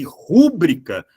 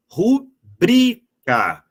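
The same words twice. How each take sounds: First: Rúbrica with RU as the strong syllable; stress on first syllable. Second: Rubrica drawn out slowly, syllable by syllable, BRI strongest; ru-BRI-ca, very slow, high stressed BRI; stress on the penultimate. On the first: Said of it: "as pessoas pronunciam de maneira incorreta". (rúbrica com acento forte no RU) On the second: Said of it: "a pronúncia correta é simplesmente". (rubrica bem devagar, com força no BRI) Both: Shown as a demonstration.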